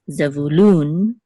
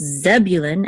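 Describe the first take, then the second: First: The stress is on the last syllable. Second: The stress is on the first syllable. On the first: "in Hebrew, it's Zevulun, accent on the last syllable" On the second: "in English, it's Zebulun, accent on the first syllable"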